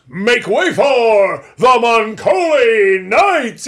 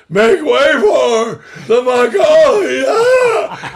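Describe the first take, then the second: First: Slow, booming announcer shout, much louder and higher; big announcer boom. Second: Slow shout that breaks into a high cry; voice cracking shout. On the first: The professor's final cue, a slow booming shout. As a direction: bellow it like a trailer voice. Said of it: "It had to be like one of those big boom". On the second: An exhausted actor's final cue, voice breaking. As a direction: strain the shout until the voice cracks. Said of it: "he had been working all day". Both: Retold or imitated.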